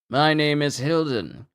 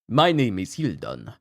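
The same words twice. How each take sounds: First: It is said in a normal voice. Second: It is said in a Dracula voice.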